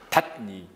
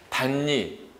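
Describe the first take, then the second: First: The first consonant stays a stop before n. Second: The first consonant becomes a nasal n sound. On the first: The speaker calls it wrong. "이상하게 발음하게 되죠. 닷니 막 이렇게 해야 돼요. 미국 사람 같아요" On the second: The speaker calls it right. "단니 이렇게 당연히 발음이 되는 건데"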